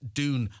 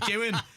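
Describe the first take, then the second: First: The word is said in a neutral accent. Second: The word is said in a Dublin accent. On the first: "I have to pronounce it that way" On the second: "my Dublin accent comes out and everyone mocks me because I say Dune"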